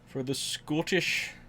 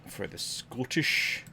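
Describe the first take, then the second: First: It is said in a put-on Scottish accent. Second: It is said in the speaker's ordinary accent.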